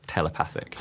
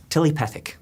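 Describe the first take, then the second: First: Said in the usual way. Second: Telepathic said as tilipethic, Kiwi vowels; New Zealand accent. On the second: Retold or imitated. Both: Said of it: "Peter Jackson try to say".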